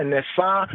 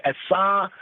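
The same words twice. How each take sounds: First: Nesa, with a clear N at the start; N-initial form. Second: Esa, starting on the vowel without an N; Hebrew form. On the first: Teacher sets it beside Hebrew esa, N-first nesa. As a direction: open nesa on an N sound. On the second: Teacher gives the Hebrew form, Hebrew pronunciation esa. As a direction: say esa with no opening N. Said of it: "In the Hebrew say esa". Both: Shown as a demonstration.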